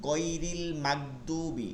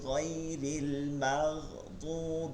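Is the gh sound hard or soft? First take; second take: hard; soft. First: The gh sounds are hard, with no throat friction. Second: The gh sounds are soft, with throat friction. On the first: The speaker calls it wrong. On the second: The speaker calls it right.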